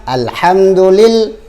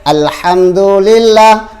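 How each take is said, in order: The two takes are said the same way.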